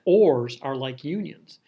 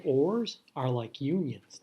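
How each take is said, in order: First: ORS hit loud and drawn out; emphatic repeat. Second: Said in the usual way. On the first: Shown as a demonstration. Teacher repeating a point for the class, emphatic and loud on ORS. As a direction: punch ORS, slowly, so nobody misses it. Repeats it after catch question.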